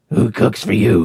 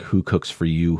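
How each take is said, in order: First: It is said in a raspy, hoarse voice. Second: It is said in a plain, clear voice.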